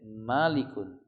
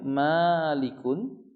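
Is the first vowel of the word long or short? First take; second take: short; long. First: The first vowel is kept short. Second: The first vowel is drawn out long. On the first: "Bisa dibaca dengan pendek" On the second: "bisa dibaca dengan panjang"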